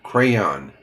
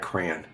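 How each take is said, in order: First: The final yon syllable is said fully. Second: The final yon syllable is left out. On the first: The speaker calls it right. "I forgot the young, young, Y O N" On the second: The speaker calls it wrong. "not crayon"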